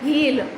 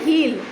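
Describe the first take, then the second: First: It is said as one contracted syllable. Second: It is said as one contracted syllable.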